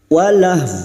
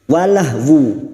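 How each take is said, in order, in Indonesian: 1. Kata berhenti di h tanpa vokal akhir. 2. Kata berakhir dengan bunyi 'wu' yang terdengar. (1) "Namun bunyinya walah" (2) "Tetapi bukan walahwu"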